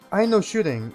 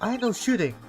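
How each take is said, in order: First: It is said in the speaker's normal voice. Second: It is said in a put-on character voice.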